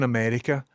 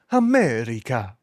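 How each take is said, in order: First: Said in the usual way. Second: Drawn-out, mock-grand America; hammed-up echo. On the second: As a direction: stretch it out with a playful pitch swoop. Hammed-up echo of own word.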